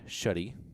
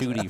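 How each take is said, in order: First: The first vowel is a short 'uh' sound. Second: The first vowel is a long 'oo' sound. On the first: The speaker calls it right. "Did I pronounce it right?" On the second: The speaker calls it wrong. "there's no ooh, there's no like double O"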